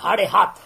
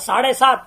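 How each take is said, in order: First: The words begin with an h sound. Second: The words begin with an s sound.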